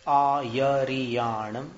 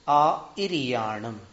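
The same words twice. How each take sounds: First: आ यरियाणम slow, य sound clear; आ यरियाणम, with य, said slowly; Shvetambar reading. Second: आ इरियाणम slow, इ vowel clear; आ इरियाणम, with इ, said slowly; vowel reading. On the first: (आ यरियाणम धीरे, य के साथ) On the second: (आ इरियाणम धीरे, इ स्वर के साथ) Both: Shown as a demonstration. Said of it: "केवल स्वर और व्यंजन का भेद है".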